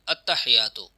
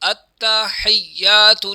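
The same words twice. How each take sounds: First: The t and y sounds are said single. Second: The t and y sounds are held doubled. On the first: The speaker calls it wrong. "गलती क्या करते हैं" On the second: The speaker calls it right. "ये भी मुशद्दद है और या पर भी शद है"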